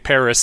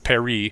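First: The name is said with an English pronunciation. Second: The name is said with a French pronunciation. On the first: This is the outsiders' form of the name. "how we say Paris" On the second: This is the local form of the name. "instead of Paris"

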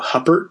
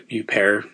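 First: The name is read the English way, as spelled. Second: The name mixes English and French pronunciation. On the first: "because that's how you spell her last name" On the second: "the middle ground between Hupper and Huppert"

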